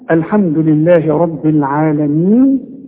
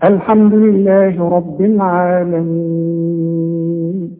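First: The final long vowel is held briefly. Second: The final long vowel is held very long. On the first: "حركتين" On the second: "وستة"

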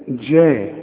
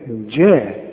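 First: The first consonant is a soft j sound. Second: The same.

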